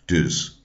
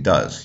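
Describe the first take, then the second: First: The vowel is a short rounded 'u' sound. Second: The vowel is the open 'uh' sound. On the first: "something along the lines of, ... dus" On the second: "he wouldn't be saying does"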